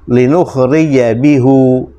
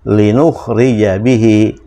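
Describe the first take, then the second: First: The last word ends with a 'u' vowel. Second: The last word ends with an 'i' vowel. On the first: It is rather heavy to pronounce. The speaker calls it wrong. "kalau kita pertahankan hu, ... agak berat itu ya" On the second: It is easy to pronounce and pleasant to hear. The speaker calls it right. "supaya mudah melafazkannya sekaligus enak didengar"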